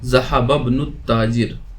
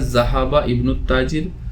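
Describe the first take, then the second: First: The words run together, dropping the 'i'. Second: The words are said separately, with 'i'.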